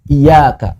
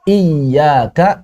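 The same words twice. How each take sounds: First: The y sound is short, single. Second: The y sound is held long, doubled. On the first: To your sunlight. The speaker calls it wrong. "jangan dibaca iyaka" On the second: Only to you. The speaker calls it right. "iya-nya dua"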